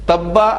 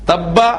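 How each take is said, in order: No difference in how they are said.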